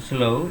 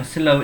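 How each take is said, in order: First: "slow" with the American rounded O. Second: "slow" with the British əʊ glide, not a plain O. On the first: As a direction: say "slow" the American way, vowel starting on O. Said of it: "orang Amerika". ("slow" pelafalan Amerika, vokal O bulat) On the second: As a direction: say "slow" the British way, vowel starting on schwa. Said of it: "yang slow ini yang British". ("slow" pelafalan British, vokal əʊ) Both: Shown as a demonstration.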